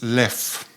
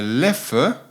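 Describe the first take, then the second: First: The name is pronounced the French way. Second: The name is pronounced the Dutch way. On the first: "in French it's" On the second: "if you want to pronounce it the Dutch way"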